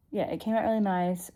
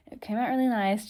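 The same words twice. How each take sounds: First: Talking with a retainer in; repeated with the retainer lisp; wearing a retainer. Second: Talking with a retainer in; slightly lispy retainer speech; wearing a retainer. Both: Real, not acted. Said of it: "Sorry, I've got my retainer in".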